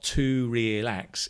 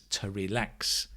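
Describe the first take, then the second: First: The word 'to' is full and stressed. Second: The word 'to' is reduced; 'lax' is stressed. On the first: The speaker calls it wrong. "It's not to relax" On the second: The speaker calls it right. "it's to relax. You can hear the stress on the lax"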